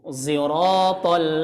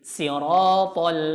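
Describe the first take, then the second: First: The first sound is blended toward a z. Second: The first sound is a plain s. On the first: "pakai zai ismam" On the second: "Wajah keduanya dia pakai sin"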